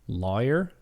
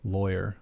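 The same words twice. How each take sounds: First: The first syllable rhymes with flaw. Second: The first syllable rhymes with boy.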